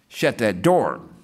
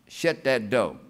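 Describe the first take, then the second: First: It is said in a standard English accent. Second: It is said in an African American Vernacular accent. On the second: "Lady used to holler out the window"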